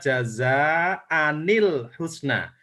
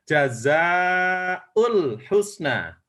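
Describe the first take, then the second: First: The word jaza ends in an 'an' sound. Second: The word jaza ends in a 'u' sound. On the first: "saya cara membacanya" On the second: "yang lain itu membacanya"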